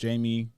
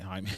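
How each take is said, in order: First: The name starts with an English J sound. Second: The name starts without the English J sound. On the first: The speaker calls it wrong. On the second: The speaker calls it right.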